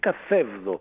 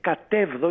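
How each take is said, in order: First: The middle consonant is a th sound. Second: The middle consonant is a plain t sound. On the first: This is the form one would otherwise expect. The speaker calls it wrong. "και όχι καθέβδο, που θα περιμέναμε" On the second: This is the Aeolic form without rough breathing. The speaker calls it right. "δεν υπάρχει πουθενά δασία. Γι' αυτό και λέγεται κατέβδο"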